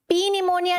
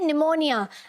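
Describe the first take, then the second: First: The word begins with a p sound. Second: The word begins with an n sound. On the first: The speaker calls it wrong. "पी निमोनिया नहीं बोलते" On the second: The speaker calls it right. "क्या बोलते हैं, निमोनिया"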